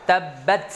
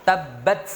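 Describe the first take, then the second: No difference in how they are said.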